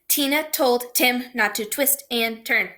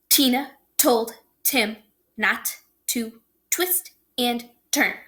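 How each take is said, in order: First: The sentence is spoken very fast. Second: The sentence is spoken somewhat faster. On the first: "One more time real fast" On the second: "Try it again a little faster"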